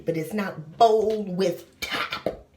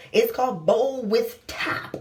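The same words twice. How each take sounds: First: Slow, bowl with top spelled out word by word; slow emphatic naming; stress on bowl. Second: Said in the usual way. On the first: Shown as a demonstration. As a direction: lean on the bowl part, slowly.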